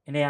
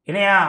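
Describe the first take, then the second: First: The voice sounds warm and affectionate. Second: The voice sounds challenging and hostile. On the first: It is a friendly greeting. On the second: It is a provocation.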